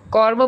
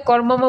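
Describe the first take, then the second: First: কর্ম said as kor-mo, M sounded once; no repeated syllable in কর্ম; single M. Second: কর্মম said as kor-mo-mo; slow কর্মম with an extra mo; wrongly doubled M. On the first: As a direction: say কর্ম with one mo. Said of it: "কর্ম বলে কর্মম বলি না". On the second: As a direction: repeat the final mo in কর্মম. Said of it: "কর্মম বলি না". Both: Shown as a demonstration.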